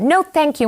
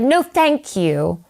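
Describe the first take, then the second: First: Higher transatlantic "No, thank you"; firm transatlantic refusal; transatlantic accent. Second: Slow, clipped transatlantic "No, thank you"; transatlantic accent. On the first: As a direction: transatlantic accent, repeated firmly. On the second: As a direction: refuse in a transatlantic accent, slowly. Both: Retold or imitated. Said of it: "a transatlantic accent".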